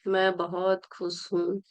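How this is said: It is said in a dull, low-energy way.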